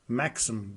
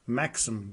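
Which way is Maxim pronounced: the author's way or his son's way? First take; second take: son's way; son's way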